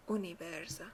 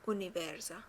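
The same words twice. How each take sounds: The two takes are said the same way.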